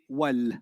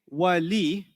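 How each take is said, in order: First: The word ends on the l sound. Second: The word ends with a vowel after l. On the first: The speaker calls it right. "they say wal" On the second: The speaker calls it wrong. "they don't say wali"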